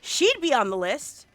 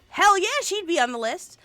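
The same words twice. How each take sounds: First: Said in the usual way. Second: Loud excited "Hell yeah, she'd be on the list". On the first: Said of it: "plain first take". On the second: Real, not acted. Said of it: "excited repeat of the line".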